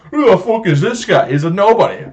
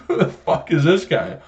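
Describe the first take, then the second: First: Loud, high-pitched incredulous jeer; exaggerated mocking disbelief. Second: Slightly raised, incredulous jab; mocking disbelief. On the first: Customer jeering at manager's picture, exaggerated mocking disbelief. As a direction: blow the disbelief up, much higher. Repeats the mockery, escalating. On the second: Customer reacting to manager's picture in store, mocking disbelief.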